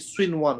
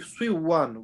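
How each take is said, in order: First: The n sound is pronounced clearly before w. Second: The n sound merges into the following w. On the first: The speaker calls it right. "We have to read it clear and fast" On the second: The speaker calls it wrong. "we don't say swing one"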